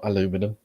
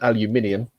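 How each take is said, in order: First: The word is said with four syllables. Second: The word is said with five syllables. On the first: The speaker calls it wrong. "not aluminum" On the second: The speaker calls it right. "transparent aluminium, not aluminum"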